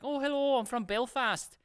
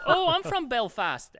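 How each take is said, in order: First: Put-on Irish accent. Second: High, loud Belfast exclamation; excited Irish accent. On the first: Bored salesman greeting shopper, put-on Irish accent. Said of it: "I was doing an Irish accent". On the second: Retold or imitated. Irish shopper meeting a supposed countryman, excited Irish accent. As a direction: imitate a thrilled Irish woman, drawn out. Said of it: "this lady was like".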